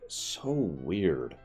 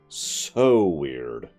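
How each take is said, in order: First: The word 'so' gets moderate emphasis. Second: The word 'so' gets strong emphasis.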